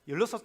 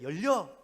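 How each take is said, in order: First: It is said in standard Korean pronunciation. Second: It is said in a strong Gyeongsang dialect. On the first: This is how it should be said. The speaker calls it right. "열여섯 자리인데" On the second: The speaker cannot drop his home dialect. The speaker calls it wrong. "열려 이렇게 하는 거예요"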